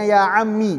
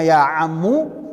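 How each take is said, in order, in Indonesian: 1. Kata ini berakhir dengan vokal 'i'. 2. Kata ini berakhir dengan vokal 'u'. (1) "bisa dibacanya ya ammi" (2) "Bisa dibacanya ya ammu"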